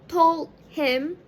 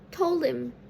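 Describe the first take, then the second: First: The h sound in him is pronounced. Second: The h sound in him is dropped. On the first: "the phrase told him is often reduced" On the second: "dropping the h sound in the word him"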